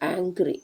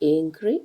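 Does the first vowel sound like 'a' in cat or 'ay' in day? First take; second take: a; ay. First: The first vowel sounds like 'a' in cat. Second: The first vowel sounds like 'ay' in day. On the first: "അങ്ങനെ രണ്ട് സ്റ്റൈലിലും ഇത് ഉച്ചരിക്കാറുണ്ട്" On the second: "ഇവിടെ നമ്മൾ എ എന്ന ലെറ്ററിനെ എ എന്ന് തന്നെയാണ് വായിക്കുന്നത്"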